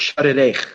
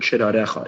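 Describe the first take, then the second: First: The word ends on a consonant sound. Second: The word ends with an extra final vowel. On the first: The speaker calls it right. "It's shirarech" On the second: The speaker calls it wrong. "I've pronounced it word wrong. I pronounced it shirarecha"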